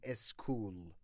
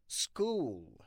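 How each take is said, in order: First: An extra vowel sound comes before the s. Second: The word starts directly with the s sound. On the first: The speaker calls it wrong. "هیچ وقت نگین اسکول" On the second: The speaker calls it right.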